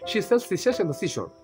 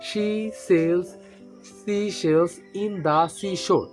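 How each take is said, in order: First: The phrase is said quickly and smoothly. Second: The phrase is said slowly and carefully.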